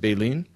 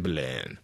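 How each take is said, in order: First: The word is said with an English-sounding pronunciation. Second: The word is said with a French-sounding pronunciation. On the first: "Is it Baleen?" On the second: "I'm going to say Baleine because it sounds French"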